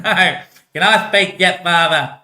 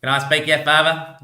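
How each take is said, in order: First: Higher, louder, drawn-out plea; exasperated, stretched-out asking; impatient pleading. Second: Said in the usual way. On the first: Acted. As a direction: nag father slowly and insistently. Son pleads repeatedly with father.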